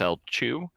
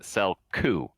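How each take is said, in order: First: The middle consonant is a ch sound. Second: The middle consonant is a hard k sound. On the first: This is how the speaker always said the name. The speaker calls it wrong. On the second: This is how the author says the name. The speaker calls it right. "he says he pronounces it Selku"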